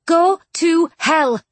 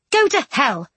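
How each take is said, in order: First: Slow, higher, louder, word by word; emphatic, separately spaced words; enunciated plainly. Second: Quick, higher-pitched snub; sharp, raised-pitch refusal; annoyed retort. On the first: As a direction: spell it out for him deliberately. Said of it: "Charlotte enunciated plainly". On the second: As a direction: throw it back at him, annoyed. Jane, annoyed, rejects the Duke. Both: A narrator's reading.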